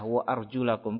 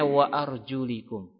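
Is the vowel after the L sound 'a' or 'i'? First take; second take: a; i. First: The vowel after the L is 'a'. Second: The vowel after the L is 'i'. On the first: The feet are to be washed. The speaker calls it right. "membacanya dengan fathah" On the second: The feet are to be wiped. The speaker calls it wrong. "Kenapa dibaca kasrah linya, lamnya?"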